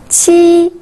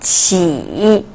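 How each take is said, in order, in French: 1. La hauteur reste haute et plate. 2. La hauteur descend bas, puis monte.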